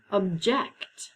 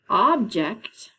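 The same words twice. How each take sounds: First: "object" as ub-JECT, second syllable strong; stress on second syllable. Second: "object" slowly, as OB-ject; stress on first syllable. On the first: Teacher presenting the second homograph, "object" stressed ub-JECT. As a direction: hit the end of "object": ub-JECT. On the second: Teacher presenting the next homograph, "object" stressed OB-ject. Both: Shown as a demonstration. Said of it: "That's our next group of homographs".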